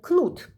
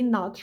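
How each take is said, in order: First: The name starts with a K then N sound. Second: The name starts with a plain N sound. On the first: This is the Russian reading of the name. "if you read it in Russian, using the Russian phonetic system" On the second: This is the English reading of the name. "in English, I would say Nat Roland"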